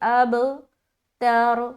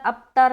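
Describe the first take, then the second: First: The b bounces with a short echoing release. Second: The b is closed quietly with no echo. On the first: The speaker calls it right. "अब में कलकला करेंगे, आवाज लौटती हुई मालूम हो" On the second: The speaker calls it wrong. "अबतर नहीं बोलना"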